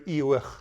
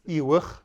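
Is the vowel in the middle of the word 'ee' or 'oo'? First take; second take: ee; oo. First: The middle vowel sounds like 'ee'. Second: The middle vowel sounds like 'oo'. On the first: This is the form used around another town. "with a I instead of a U" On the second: This is the form used in some villages. "That's mostly Tel Kepe"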